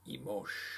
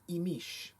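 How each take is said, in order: First: The word is said the Guatemalan way. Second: The word is said the Yucatecan way. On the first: "The Guatemalan is" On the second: "The Yucatecan pronunciation is"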